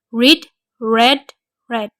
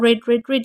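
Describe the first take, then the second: First: The first word differs from the other two. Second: All three words are pronounced the same way. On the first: The speaker calls it right. "walaupun penulisannya sama, tapi pengucapannya berbeda" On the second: The speaker calls it wrong.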